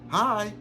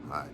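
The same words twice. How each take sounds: First: The greeting is lively and full of energy. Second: The greeting is flat and low in energy. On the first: The speaker wants to talk. "It's a transfer of energy" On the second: The speaker does not want to talk. "It's dry"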